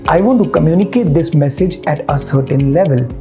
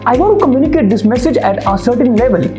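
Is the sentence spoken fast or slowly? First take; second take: slowly; fast. First: The sentence is spoken at a slow pace. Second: The sentence is spoken at a fast pace. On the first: The speaker calls it right. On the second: The speaker calls it wrong.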